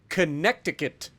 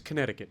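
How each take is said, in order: First: The middle 'c' is pronounced as a k sound. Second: The middle 'c' is silent, not pronounced at all. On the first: The speaker calls it wrong. "if you uh, don't know how to pronounce it" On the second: The speaker calls it right. "The C doesn't actually exist"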